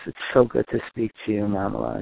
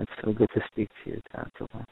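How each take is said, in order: First: Put-on gentle, loving greeting to a child; warm parent voice. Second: Softer, trailing into a whisper on Tantala; tender hush. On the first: Parent calling a child far away, warm and gentle. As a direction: greet your child with plain affection. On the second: Parent to faraway child, dropping to a tender whisper. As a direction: hush it lovingly, like a goodnight. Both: Shown as a demonstration. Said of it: "the warmth in your voice".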